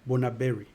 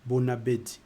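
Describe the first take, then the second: First: The consonant before the final vowel is r. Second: The consonant before the final vowel is d. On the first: The speaker calls it wrong. "it's not Bonaberi" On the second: The speaker calls it right. "it's Bonabedi"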